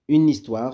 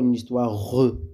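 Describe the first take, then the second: First: The final e is silent. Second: The final e is pronounced as a syllable. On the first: The speaker calls it right. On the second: The speaker calls it wrong.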